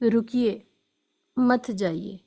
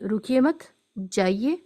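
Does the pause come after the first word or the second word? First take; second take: first word; second word. First: There is a pause right after the first word. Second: There is a pause right after the second word. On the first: The listener is asked to stay. "इसका मतलब है ठहर जाइए" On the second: The listener is told to leave. "तो मतलब है ठहरना नहीं है, चले जाना है"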